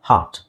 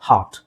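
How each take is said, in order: Both takes have the same delivery.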